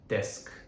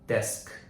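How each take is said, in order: First: The word ends sharply on the k sound. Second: The word ends sharply on the k sound.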